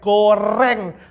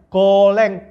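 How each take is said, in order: First: The second syllable starts with an R sound. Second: The second syllable starts with an L sound. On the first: The speaker has learned to pronounce R. The speaker calls it right. "Pakai R gitu ya" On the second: The speaker cannot yet pronounce R. The speaker calls it wrong. "kalau ngomong R jadi L ya"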